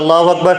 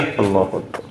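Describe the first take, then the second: First: It is said aloud, like the imam. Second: It is said very softly, barely audible.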